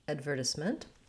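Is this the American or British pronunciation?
British. It is said in a British accent. "British English"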